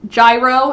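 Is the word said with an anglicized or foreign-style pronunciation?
anglicized. The word is said with an anglicized pronunciation. "if you're not trying with accenting"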